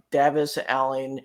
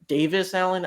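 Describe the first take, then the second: First: "Davis" with a short a, like "DAV-iss"; unsure pronunciation. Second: "Davis" with a long a, like "DAY-viss"; alternative pronunciation. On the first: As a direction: say "Davis" with the first vowel as in "have". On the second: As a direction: say "Davis" with the first vowel as in "day". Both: Shown as a demonstration. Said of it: "how you pronounce that".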